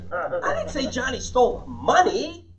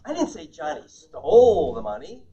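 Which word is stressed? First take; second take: money; stole. First: The stress is on money. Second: The stress is on stole.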